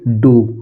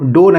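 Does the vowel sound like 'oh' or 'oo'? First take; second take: oo; oh. First: The vowel sounds like 'oo'. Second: The vowel sounds like 'oh'. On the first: The speaker calls it right. "इसको हम पढ़ेंगे डू" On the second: The speaker calls it wrong. "डो नहीं पढ़ेंगे"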